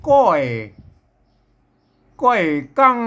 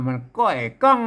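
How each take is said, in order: First: ก้อยกั้ง with กั้ง sung in the special rising tone; teacher sings ก้อยกั้ง with กั้ง in its special rising tone. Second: Spoken ก้อยกั้ง, กั้ง in the special tone; teacher explains ก้อยกั้ง in a plain speaking voice; special tone demo. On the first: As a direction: chant ก้อยกั้ง giving กั้ง the extra tone. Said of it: "ไม่ใช่ก้อยนะครับ ก้อยกั้ง". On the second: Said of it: "กั้ง เสียงโทพิเศษ". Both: Shown as a demonstration.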